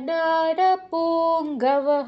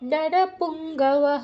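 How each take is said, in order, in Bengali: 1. অক্ষরগুলো ধীরে ধীরে টেনে বলা হচ্ছে। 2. অক্ষরগুলো দ্রুত বলা হচ্ছে। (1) "টেনে বলা যাবে না, না শৈব্যশ্চ নরপুঙ্গবঃ এরকম করা যাবে না" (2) "দ্রুত বলতে হবে"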